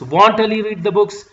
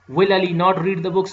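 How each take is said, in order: First: 'Will not' is contracted into one short word. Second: 'Will' and 'not' are said as separate full words. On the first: It is an informal way of asking. "in an informal way" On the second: It is a formal way of asking. "in a formal way"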